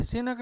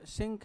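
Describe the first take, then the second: First: सिनक said si-nak, with a clear n; wrong split pronunciation. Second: सिंक with ng into k, one syllable; correct nasal pronunciation. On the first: Teacher showing class the wrong way, split si-nak. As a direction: demo the mistake: सिनक in two beats. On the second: Teacher giving class the right form, nasal ng. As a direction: say सिंक as singk. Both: Shown as a demonstration. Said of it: "ये सिनक नहीं है".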